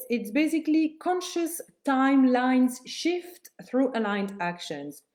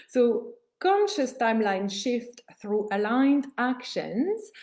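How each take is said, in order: First: Said in the usual way. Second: Each word of "conscious timeline shift through aligned actions" spelled out slowly with weight; slow emphatic restatement. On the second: Shown as a demonstration. Coach repeating the step's name for students, slow and deliberate. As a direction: lay the phrase down slowly so it sinks in.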